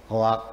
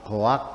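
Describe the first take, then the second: Both takes have the same delivery.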